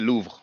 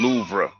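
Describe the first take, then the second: First: It is said as one syllable, French style. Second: It is said as two syllables, English style. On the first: "when we pronounce it, it's like one syllable" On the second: "When English speakers pronounce it, it sounds like two syllables"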